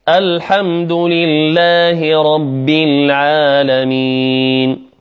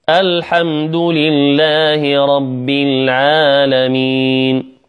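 No difference in how they are said.

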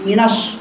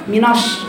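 Both takes have the same delivery.

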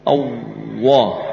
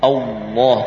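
First: The middle consonant sounds like a W. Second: The middle consonant is a clear L sound. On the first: The speaker calls it wrong. "Tapi kalau lidah enggak nempel, akhirnya yang muncul wawu" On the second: The speaker calls it right. "Kalau lidah masih nempel di gusi, ya, mending Allah"

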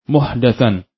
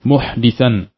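First: The vowel after the d is a. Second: The vowel after the d is i. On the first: It refers to a newly invented matter in religion. "bisa juga dibaca dengan huruf dal yang di fathah" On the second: It refers to a person who commits crimes. "Bisa dibaca dengan huruf dal yang di kasrah"

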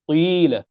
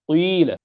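First: The vowel is an i with rounded lips. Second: The vowel is an i with rounded lips.

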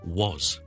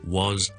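First: The vowel is full and clearly stressed. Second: The vowel is full and clearly stressed.

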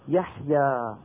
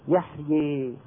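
First: The final vowel is an open a sound. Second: The final vowel is tilted fully toward e. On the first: This is the open pronunciation without vowel tilting. "أما قريش فكانت من أهل الفتح" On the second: This is the major vowel tilting of some tribes. "بنو تميم وغيرهم كمان من بعض القبائل الأخرى يقولون"

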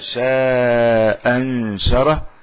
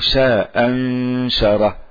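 First: The vowel in shaa is held long. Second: The vowel in shaa is kept short. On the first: The dropped hamza is still counted. "إما أن يعتد بوجودها المحذوف" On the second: The dropped hamza is not counted. "وإما ألا يعتد ويعتبرها سقطت"

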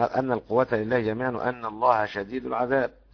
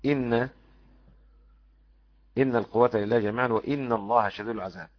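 First: The hamza is said with a, as anna. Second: The hamza is said with i, as inna.

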